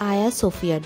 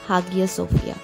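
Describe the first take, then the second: First: The name begins with a vowel, no H sound. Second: The name begins with an H sound.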